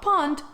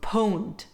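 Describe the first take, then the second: First: The word has the vowel of 'pond'. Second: The word has the vowel of 'owned'. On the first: The speaker calls it wrong. "not pond" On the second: The speaker calls it right. "Pwned derives from owned, hence the pronunciation"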